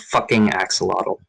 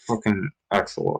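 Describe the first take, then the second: First: It is said clearly and audibly. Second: It is mumbled quietly and indistinctly.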